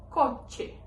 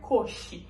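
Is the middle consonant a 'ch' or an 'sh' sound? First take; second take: ch; sh. First: The middle consonant is a sharp 'ch' sound. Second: The middle consonant is a soft 'sh' sound. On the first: This is the Spanish pronunciation. "em espanhol, o C H vai ter esse fonema de che" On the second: This is the Portuguese pronunciation. "no português a gente pronuncia coxe, com esse C H com fonema de X"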